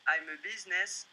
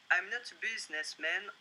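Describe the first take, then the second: First: French-accented English, "I'm" stressed, "businessman" unstressed; French accent in English with the weight on "I'm". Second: French-accented English, "not" stressed with a rise. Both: Shown as a demonstration. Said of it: "Excusez-moi pour mon accent".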